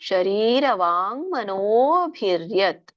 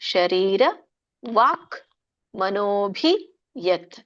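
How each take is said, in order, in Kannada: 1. ಪದಗಳನ್ನು ಕೂಡಿಸಿ, ಮಧ್ಯೆ ಜೋಡಿಸುವ ಧ್ವನಿಗಳೊಂದಿಗೆ ಹೇಳುತ್ತಾರೆ. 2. ನಾಲ್ಕು ಪದಗಳನ್ನೂ ಬಿಡಿಬಿಡಿಯಾಗಿ, ಕೂಡಿಸದೆ ಹೇಳುತ್ತಾರೆ. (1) "ನೀವು ಕೂಡಿನೇ ಹೇಳ್ಬೇಕು ಇದನ್ನ" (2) "ಇದನ್ನ ಬಿಡಿಸಿದಾಗ ನಾಲ್ಕು ಪದಗಳಾಗುತ್ತೆ"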